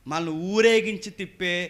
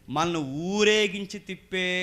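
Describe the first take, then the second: No difference in how they are said.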